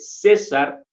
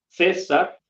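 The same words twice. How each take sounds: First: The first consonant is an s sound. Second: The first consonant is not an s sound. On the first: This is how the Mexican dialect says it. "no la pronuncio, digamos, como C, sino la pronuncio como en la S" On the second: This is how some peninsular varieties say it. "ya tiene otro sonido"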